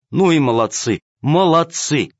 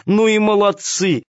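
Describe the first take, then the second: First: Loud praise. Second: Delighted praise. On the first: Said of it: "громко расхваливала их". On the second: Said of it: "повторяла она". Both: A narrator's reading.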